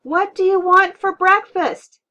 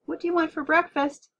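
First: Full-out high yell, slowed and drawn out. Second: Raised, high-pitched mom's call; shouted. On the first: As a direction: yell each word over the blaring TV. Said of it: "Mom yelled". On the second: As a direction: call out over the TV noise. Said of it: "Mom shouted". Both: A narrator's reading.

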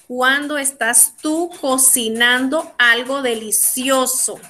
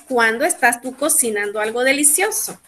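First: Slow, word-by-word question; slow dictation. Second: Said in the usual way. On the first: Shown as a demonstration. Teacher sets class a question about cooking, slowly and deliberately. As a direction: space out each part for learners. Teacher gives sentence to translate.

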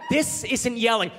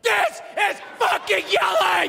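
First: Held-back, slow, tense denial; strained restraint in a mock row; not yelling. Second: Very high, drawn-out furious scream; hammed-up screaming demonstration of a yell; full-out yelling. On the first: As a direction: hold the shout in and stretch the words. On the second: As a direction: scream each word slowly at the top of the range.

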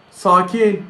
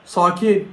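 Both takes have the same delivery.

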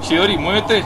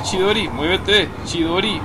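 First: Loud, high urging call; urgent shout. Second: Loud, slow, high command; drawn-out urging. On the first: Player urging Chidori on, loud and high. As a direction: yell at the character to hurry. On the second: Player urging Chidori again, loud and slow. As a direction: stretch it out, pleading with her to move. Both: Real, not acted.

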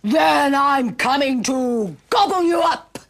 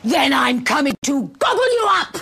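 First: Loud, drawn-out menacing troll; roaring troll. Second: Loud, menacing troll roar. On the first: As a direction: roar the threat as a hungry troll. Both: Acted. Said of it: "roared the troll".

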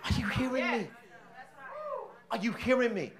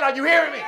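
First: Preacher gently asks the congregation, soft; soft question. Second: Loud and higher: Are you hearing me?; preacher calls out to silent congregation, loud; shouted question. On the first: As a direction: ask it quietly, almost to yourself. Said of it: "Y'all ain't saying that". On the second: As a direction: demand an answer from the crowd. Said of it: "I said". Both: Shown as a demonstration.

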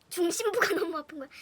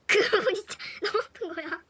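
First: Laughs while telling of the pain, a bit louder; half laughing at the memory of the hurt; giggly pained telling; laughing through it. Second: Louder laugh breaks into the words; cracking up while stressing the pain; loud giggling emphasis; laughing harder. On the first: Retelling painful fall, laughing. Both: Real, not acted.

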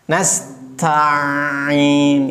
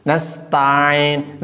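First: Nasta'in with the ain merged into the ta; Nasta'in misread, ain swallowed; Nasta'in said wrongly, ain joined to ta; wrong reading. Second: Nasta'in with ta and ain kept apart; Nasta'in said clearly, ain set apart from ta; Nasta'in read right, each letter separate; correct reading. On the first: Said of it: "Itu salah". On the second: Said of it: "Jadi ta tersendiri, ain tersendiri". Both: Shown as a demonstration.

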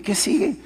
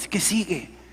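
First: Much higher, pitched way up, asking God what comes next; eager pleading question. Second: Said in the usual way. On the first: Shown as a demonstration. Telling the audience how he asked God, high and eager. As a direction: throw "¿Qué sigue?" up high like a plea to the sky. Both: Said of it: "así dije".

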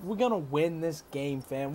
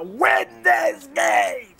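First: Said in the usual way. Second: Rising, drawn-out rallying cry; rallying shout. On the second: Real, not acted. Gamer hyping his fam to win, rallying shout. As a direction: build up to a shouted vow. Same vow said low, then shouted.

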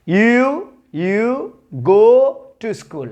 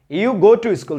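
First: Loud, stretched-out model of "you go to school"; teacher modelling you go to school with dragged words; slow modeled sentence. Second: Said in the usual way. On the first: Shown as a demonstration. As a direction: drill it slowly and loudly for the class. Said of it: "teacher models the sentence slowly". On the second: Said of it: "teacher repeats the sentence".

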